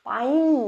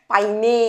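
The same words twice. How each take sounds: First: পাইন ending on the n; silent final e. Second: পাইনে slowly, with a sounded final e; mistaken pronunciation demo. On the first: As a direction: say পাইন like English 'pine', nothing after n. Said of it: "কোনো মতেই আসবে না". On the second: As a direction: say পাইনে as 'pai-ney', stretched and louder. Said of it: "এরকম উচ্চারণ করছি?". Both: Shown as a demonstration.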